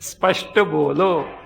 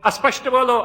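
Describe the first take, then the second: First: The word begins directly with the sp cluster. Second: An extra vowel is added before the sp cluster. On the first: The speaker calls it right. "What he said was Spashta bolo" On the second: The speaker calls it wrong. "like school, it became Aspashta. Because he was coming from Orissa side, and that is their way of pronouncing"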